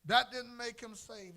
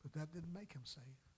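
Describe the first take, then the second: First: Louder, higher repeat; preaching emphasis. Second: Said in the usual way. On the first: Real, not acted. Preacher repeating his point to the church, louder and higher. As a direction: hammer the point home.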